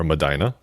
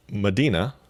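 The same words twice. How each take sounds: First: "Medina" with an "eye" in the middle; "Medina" rhyming with "china"; alternative pronunciation. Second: "Medina" with an "ee" in the middle; "Medina" rhyming with "arena"; first pronunciation. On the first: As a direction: say "Medina" as muh-DYE-nuh. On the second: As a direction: say "Medina" as muh-DEE-nuh. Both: Shown as a demonstration. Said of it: "or Medina".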